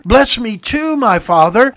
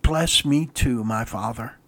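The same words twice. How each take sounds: First: High, loud, desperate plea to a father; loud bitter cry. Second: Soft, slow, low plea sinking to a near-whisper on "my father"; anguished plea. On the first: Acted. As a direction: beg out loud, heartbroken. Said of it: "he cried out with a loud and bitter cry". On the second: Shown as a demonstration. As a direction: let "Bless me too, my father." fall quiet and broken. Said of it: "There isn't enough anguish in my words".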